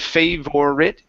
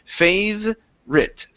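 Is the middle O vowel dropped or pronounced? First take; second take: pronounced; dropped. First: The middle O vowel is fully pronounced. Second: The middle O vowel is dropped. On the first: The speaker calls it wrong. "Instead of favorite" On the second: The speaker calls it right. "we do not need to pronounce that O sound"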